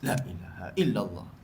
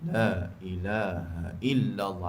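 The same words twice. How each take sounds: First: The phrase is rushed out quickly. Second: The phrase is drawn out slowly. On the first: The chanting hurries because the meal is near. "tiga puluh yang baki tu laju" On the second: The chanting starts out unhurried. "Awal tu slow"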